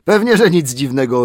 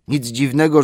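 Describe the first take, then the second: First: Mocking echo. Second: Higher, louder grumble on dziwnego; sleepy butler excusing himself; grumbling old butler. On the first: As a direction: throw his words back at him. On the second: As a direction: defend yourself crossly. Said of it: "mamrotał". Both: A narrator's reading.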